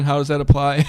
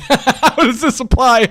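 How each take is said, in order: First: Said in the usual way. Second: Slow, louder repeat with a laugh. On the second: Real, not acted. Host echoing the chat question, laughing slowly. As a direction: laugh as you echo the question back.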